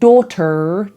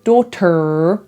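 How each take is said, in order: No difference in how they are said.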